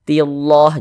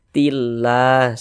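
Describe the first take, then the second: First: The L sound is heavy and thick. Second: The L sound is light and thin. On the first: The speaker calls it wrong. "jangan dibaca tillah" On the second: The speaker calls it right. "tapi ditipiskan"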